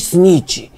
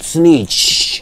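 First: The vowel is short and clipped. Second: The vowel is stretched out long. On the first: It is a mild, not-real accusation. "What I call you is the fake one" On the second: It is the real, serious accusation. "The snitch that you are is a long one"

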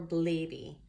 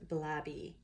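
First: The first vowel is a long a sound. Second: The first vowel is a short a sound.

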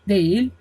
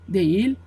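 The two takes are said the same way.

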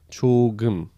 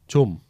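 First: It is said as two full syllables. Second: It is shortened to a single syllable. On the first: "조금 significa um pouco" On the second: "também é muito abreviado e vai virar"

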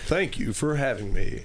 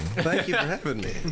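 First: It is said in a put-on radio-announcer voice. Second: It is said in an ordinary speaking voice.

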